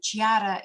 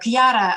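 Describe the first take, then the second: First: The name begins with a CH sound. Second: The name begins with a hard K sound. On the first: The speaker calls it wrong. "объявляют Чьяра" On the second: The speaker calls it right. "когда вместо, допустим, Кьяра"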